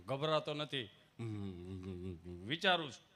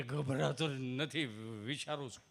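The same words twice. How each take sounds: First: A hint of a low, soft, timid villager. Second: Low, very slow timid villager. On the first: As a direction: mumble it shyly. Gabho replying softly. (શરમાળ ગામઠી અવાજ) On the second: Retold or imitated. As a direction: drag it out shyly. Gabho repeats, slower. (ધીમો શરમાળ ગામઠી અવાજ)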